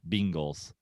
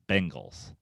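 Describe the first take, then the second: First: The first vowel sounds close to 'ee'. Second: The first vowel sounds like 'eh'. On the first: "like where it's a little more like it's almost two E's" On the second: "I think the answer is Bengals"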